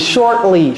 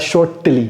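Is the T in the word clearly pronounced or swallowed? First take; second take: swallowed; pronounced. First: The T sound is swallowed. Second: The T sound is clearly pronounced. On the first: The speaker calls it right. "C'est shortly. ... comment j'avale le T" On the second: The speaker calls it wrong. "ne dites pas shortly. Ça, c'est anglais villageois"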